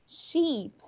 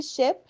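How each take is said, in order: First: SHEEP with a long EE, pitched up; long vowel. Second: SHIP with a quick lax I, near EH; short vowel. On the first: Teacher contrasting sheep the animal with ship, long vowel. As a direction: hold the EE in sheep. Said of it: "um tem o som longo". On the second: Teacher contrasting ship the boat with sheep, short vowel. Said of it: "a outra tem um som curto". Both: Shown as a demonstration.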